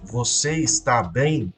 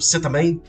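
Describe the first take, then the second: First: Every syllable of está is said in full. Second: Está is shortened to tá, said quickly. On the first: "Você falasse você está bem" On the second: "você falar rápido"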